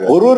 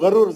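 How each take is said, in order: First: The first vowel is an 'u' sound. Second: The first vowel is an 'a' sound. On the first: The speaker calls it wrong. "गुरूर ने" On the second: The speaker calls it right. "गरूर जबर से"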